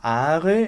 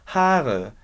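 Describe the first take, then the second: First: The word starts without an H sound. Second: The word starts with a strong H sound. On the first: The speaker calls it wrong. "Eu não vou falar are" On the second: The speaker calls it right. "eu vou falar Haare"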